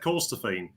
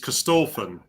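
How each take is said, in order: First: The surname is said the non-Scottish way. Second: The surname is said the Scottish way. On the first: This is how the family has always said it. The speaker calls it wrong. "my dad has always said" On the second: This is how the place name is said in Scotland. The speaker calls it right. "the correct way to pronounce my surname is"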